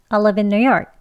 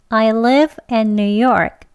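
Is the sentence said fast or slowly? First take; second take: fast; slowly. First: The sentence is said quickly. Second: The sentence is said slowly and carefully. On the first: "다음은 조금 빨리 발음하겠습니다" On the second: "천천히 두 번 합니다"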